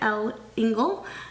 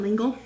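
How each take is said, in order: First: It starts with the letter L said separately. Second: It starts with one syllable blended into Engle. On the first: The speaker calls it wrong. "I always said it L. Engle" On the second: The speaker calls it right. "but it's Madeleine L'Engle"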